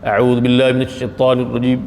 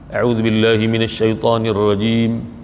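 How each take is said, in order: First: It is rushed, with letters and vowels skipped over. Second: Every letter and vowel is said fully and clearly. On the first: The speaker calls it wrong. "kadang-kadang kita baca tak sempurna" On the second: The speaker calls it right. "baca bagi elok lah"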